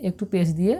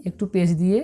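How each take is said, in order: Both takes have the same delivery.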